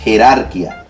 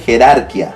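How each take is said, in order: No difference in how they are said.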